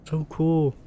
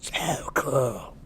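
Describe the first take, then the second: First: It is said in the speaker's normal voice. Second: It is said in Mina's put-on character voice.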